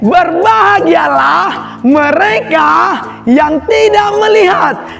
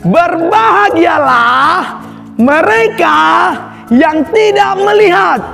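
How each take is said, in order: First: The verse is said at the quickest pace. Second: The verse is said at a quicker pace. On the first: "lebih cepat lagi" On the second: "lebih cepat lagi adik-adik"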